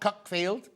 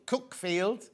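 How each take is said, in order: First: The first syllable rhymes with duck. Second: The first syllable rhymes with book. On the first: The speaker calls it wrong. "not Cuckfield" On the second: The speaker calls it right. "say, Cookfield"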